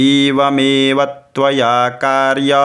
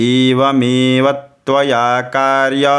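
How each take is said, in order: Both takes have the same delivery.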